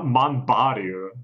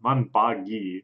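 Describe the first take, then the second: First: The name ends with a 'ru' sound. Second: The name ends with a 'gi' sound. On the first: The speaker calls it wrong. "I said her name wrong!" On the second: The speaker calls it right. "Not Manbaru"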